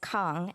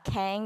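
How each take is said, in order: First: It is said with a Chinese-style vowel. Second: It is said with an English-style vowel. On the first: The speaker calls it right. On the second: The speaker calls it wrong.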